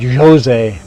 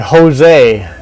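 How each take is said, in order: First: The first sound is an English J sound. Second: The first sound is a breathy H sound. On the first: The speaker calls it wrong. "not Jose" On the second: The speaker calls it right. "They know how to say Jose"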